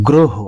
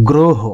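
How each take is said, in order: The two takes are said the same way.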